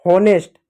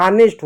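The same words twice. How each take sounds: First: हॉनेस्ट with the h kept, "ho-nest"; wrong pronunciation. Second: ऑनेस्ट with silent h; correct pronunciation. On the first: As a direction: open o after h in हॉनेस्ट. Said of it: "गलत होता है". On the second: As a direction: start ऑनेस्ट on an open vowel, "aa-nest". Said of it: "H silent होता है". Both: Shown as a demonstration.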